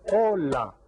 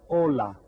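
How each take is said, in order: First: "Hola" split as "O-la", each syllable loud and higher; clapping out syllables. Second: "hola" said louder, both syllables clear; two-syllable example. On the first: Teacher claps out "Hola" for the class, loud and higher. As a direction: sound out "Hola" beat by beat. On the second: Teacher shows the class a two-syllable word, louder. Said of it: "Some words have two syllables". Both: Shown as a demonstration.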